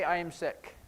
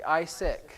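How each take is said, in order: First: Said in the usual way. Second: "I sick." said as two words; "I sick." in the short form, no verb; sign-language word order. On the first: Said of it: "How would you say". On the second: Shown as a demonstration. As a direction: drop the "am" and say "I sick.".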